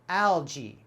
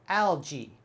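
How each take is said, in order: First: The ending sounds like 'jee'. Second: The ending sounds like 'jee'.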